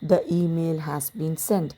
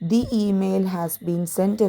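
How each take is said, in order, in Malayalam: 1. 'The' ഹ്രസ്വമായ 'thuh' ശബ്ദത്തിൽ പറയുന്നു. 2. 'The' ദീർഘമായ 'thee' ശബ്ദത്തിൽ പറയുന്നു. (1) "ദ തന്നെ പ്രൊനൗൺസ് ചെയ്യാം ചെയ്യാം ചെയ്യുന്നതാണ് നല്ല രീതി" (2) "ദി email has been സെൻറ്റ് എന്ന് പറയുന്നത് തെറ്റല്ല"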